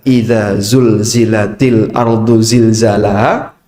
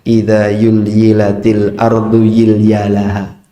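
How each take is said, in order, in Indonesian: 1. Bunyi z diucapkan sebagai z. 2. Bunyi z diucapkan sebagai y.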